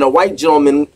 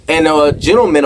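First: A white gentleman with white held longer; stress on white. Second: Said in the usual way. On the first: Shown as a demonstration. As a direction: hit the word white to correct yourself.

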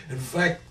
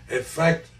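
Both takes have the same delivery.

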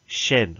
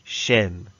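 First: Shen with a short e, like "shen"; correct pronunciation. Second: Shen repeated with a short e; correct pronunciation. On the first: Teacher correcting the middle syllable's vowel. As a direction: say Shen, not shan. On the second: Teacher confirming the right syllable sound. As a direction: say Shen clearly, not shan. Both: Shown as a demonstration. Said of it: "Not shan".

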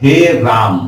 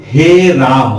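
First: Said in the usual way. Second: हे राम with the आ of राम drawn out very long, slow; stretched pluta vowel. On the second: Shown as a demonstration. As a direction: call हे राम with राम held out for three beats. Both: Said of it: "इसमें राम को खींच के बोला जाता है".

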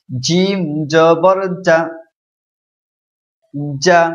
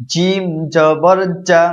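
First: জা with a thick, hard j; firm jim. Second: Said in the usual way. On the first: Shown as a demonstration. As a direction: press জা out full and firm. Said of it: "একটু শক্ত হবে". (শক্ত ও মোটা করে জা) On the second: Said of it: "এখন নিচেরটা পড়ুন".

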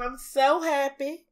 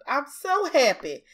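First: Slow, drawn-out Southern twang; lingering Southern delivery; southern accent. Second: Said in the usual way. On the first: Real, not acted. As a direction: let the Southern accent slip out, stretching the words. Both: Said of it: "I sound so southern".

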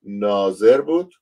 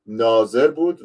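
First: ناظر بود drawn out slowly, louder, ending on a rise; slow emphatic repeat. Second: Said in the usual way. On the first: Shown as a demonstration. Preacher repeating ناظر بود to his online flock, slow and loud. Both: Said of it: "من دوباره آیه رو میذارم براتون".

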